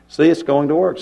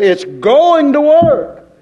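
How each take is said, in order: First: Said in the usual way. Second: Emphatic declaration. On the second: Shown as a demonstration. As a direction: proclaim it with full conviction. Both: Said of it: "I say".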